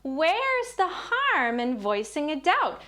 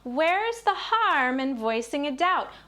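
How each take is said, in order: First: It is spoken at a high, childlike pitch. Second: The same.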